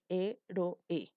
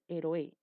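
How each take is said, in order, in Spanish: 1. Las vocales se separan en tres sílabas. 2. Las vocales se unen en dos sílabas. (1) "No, dices héroe" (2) "Tú no dices héroe"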